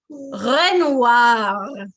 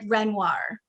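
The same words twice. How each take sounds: First: The R sounds are said the French way. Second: The R sounds are said the American way.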